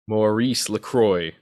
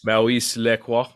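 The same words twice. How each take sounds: First: It is said with an American accent. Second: It is said with a fancy French-style accent.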